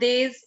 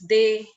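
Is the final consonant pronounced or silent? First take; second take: pronounced; silent. First: The final consonant is pronounced. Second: The final consonant is silent. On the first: The speaker calls it wrong. "It's not theys" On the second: The speaker calls it right. "it's they"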